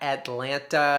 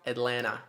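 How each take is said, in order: First: Both T sounds are clearly pronounced. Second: One of the T sounds is left silent. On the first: The speaker calls it wrong. "It's not Atlanta" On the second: The speaker calls it right. "One of the T's in Atlanta is silent"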